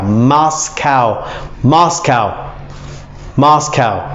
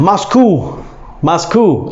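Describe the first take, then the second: First: Moscow said as MOSS-cow, ending like cow; Moscow, slow, ending like a cow; correct Moscow. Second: Moscow said as MOSS-koo; wrong Moscow. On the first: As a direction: Moscow rhymes its end with cow. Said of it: "It's almost like saying a cow". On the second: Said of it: "No, it's not Moscow". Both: Shown as a demonstration.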